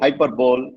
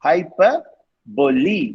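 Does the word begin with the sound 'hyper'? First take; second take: yes; no. First: The word begins with the sound 'hyper'. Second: The word does not begin with 'hyper'. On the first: The speaker calls it wrong. "Many say hyperbole. It's wrong" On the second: The speaker calls it right. "It's hyperbole. now I don't say hyper"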